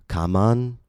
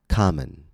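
First: The second vowel is a full 'a' sound. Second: The second vowel is a reduced schwa. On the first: The speaker calls it wrong. "The word is not pronounced kaman" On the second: The speaker calls it right. "but common"

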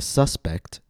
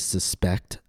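First: The stress is on the first syllable. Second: The stress is on the second syllable. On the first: It is a noun: a person thought guilty. "When the word is used as a noun, the stress will fall on the first syllable" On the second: It is a verb: to believe something is likely. "When the word is used as a verb, the stress will fall on the second syllable"

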